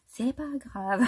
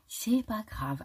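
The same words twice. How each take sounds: First: Laughing. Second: Said in the usual way. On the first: Real, not acted. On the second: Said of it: "Je me suis dit".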